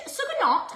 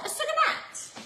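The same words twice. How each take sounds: First: "sucanat" with an open "ah" in the last syllable; high-pitched "sucanat", last syllable rhyming with "hot"; "not" pronunciation. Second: "sucanat" with a short flat "a" as in "cat"; high-pitched "sucanat", last syllable rhyming with "hat"; "nat" pronunciation. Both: Shown as a demonstration. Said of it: "is it not or is it nat".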